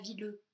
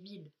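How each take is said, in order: First: A final vowel sound is pronounced after the l. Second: The word ends on the l with no vowel. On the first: The speaker calls it wrong. "On ne dit pas vileux" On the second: The speaker calls it right. "on dit vil"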